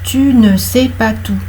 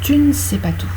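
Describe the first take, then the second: First: The vowel in 'ne' is fully pronounced. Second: The vowel in 'ne' is dropped. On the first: The speaker calls it wrong. "on ne dit pas" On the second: The speaker calls it right. "Le E, il est visible à l'écrit, mais on ne le prononce pas"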